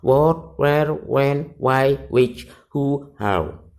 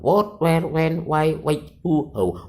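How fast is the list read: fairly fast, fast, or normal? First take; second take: normal; fairly fast. First: The list is read at a normal pace. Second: The list is read somewhat quickly. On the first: "tiga kali pertama dibaca biasa" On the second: "Dibaca tiga kali agak cepat"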